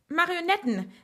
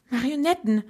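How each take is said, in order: First: High, triumphant exclamation; exultant call, pitch well up; triumphant cry. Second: Voiced, stunned half-whisper with a higher lift; mildly stunned, voiced rather than truly whispered. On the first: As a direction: announce the solution in triumph. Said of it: "rief sie triumphierend aus". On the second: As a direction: say it as if the realisation just hit. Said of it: "flüsterte sie fassungslos". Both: A narrator's reading.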